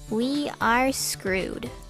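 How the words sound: It sounds gloomy and defeated.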